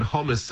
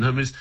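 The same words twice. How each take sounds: First: First hummus with a short vowel; contrasted pronunciation. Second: Second hummus with a long OO; contrasted pronunciation. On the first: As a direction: say hummus as "HOM-us". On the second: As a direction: say hummus as "HOO-mus". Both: Shown as a demonstration. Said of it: "the way that different vowels are pronounced".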